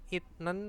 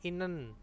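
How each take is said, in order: First: A t sound comes before the n. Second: An n sound comes before the n.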